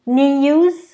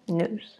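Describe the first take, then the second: First: It is said with a British accent. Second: It is said with an American accent. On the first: "تلفظ بریتیشه"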